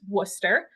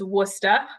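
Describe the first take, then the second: First: The word ends with an r-colored sound. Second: The final r is dropped, ending in 'ah'. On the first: "that is how you pronounce that word" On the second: "we often drop the E R and add an A H"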